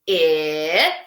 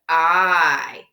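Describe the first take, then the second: First: The vowel is the short sound, as in 'itch'. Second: The vowel says its name, as in 'ice'. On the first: "Letter is short I" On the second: "Letter is long I"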